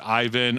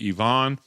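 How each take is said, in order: First: The name is said with an American pronunciation. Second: The name is said with a Russian pronunciation. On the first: "if you say uh, Ivan in American, it's Ivan" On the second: "He goes over in Russia, they say Ivan"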